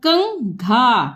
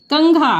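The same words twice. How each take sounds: First: कंघा drawn out part by part; slow sounding out. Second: Said in the usual way. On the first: Shown as a demonstration. Teacher to pupils, sounding out कंघा. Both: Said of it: "जैसे ये हम दिखा रहे हैं".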